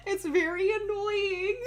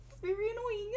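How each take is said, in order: First: Laughing. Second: Said in the usual way. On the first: Real, not acted. Laughing while talking about dog.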